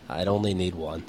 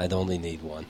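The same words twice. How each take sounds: First: Mock speech. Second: Softer, solemn repeat of the punchline; hushed mock speech. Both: Shown as a demonstration. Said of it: "That'd be my presidential speech".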